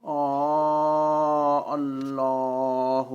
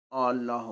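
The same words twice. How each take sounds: First: آ اللہ with the opening "aa" held very long; long madd. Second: آ اللہ short, no long hold on the opening vowel; tasheel. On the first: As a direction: recite آ اللہ slowly on a level, sustained note. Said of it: "مد کے ساتھ پڑھنا". (آ اللہ لمبی مد کھینچ کر) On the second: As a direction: glide quickly through the start of آ اللہ. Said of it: "بغیر مد کے پڑھنا تسہیل". (آ اللہ بغیر مد، تسہیل سے) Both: Shown as a demonstration.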